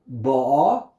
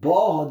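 First: The stress is on the last syllable. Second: The stress is on the first syllable. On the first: She is coming now. "she is coming" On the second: She already came. "already came in the past"

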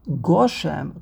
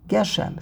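First: The first vowel sounds like 'o'. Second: The first vowel sounds like 'e'. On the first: The rain is asked for in a small, stingy amount. "Goshem is a Komatz" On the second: The rain is asked for as an abundant treasure. "the Nekudos of Geshem is Segel"

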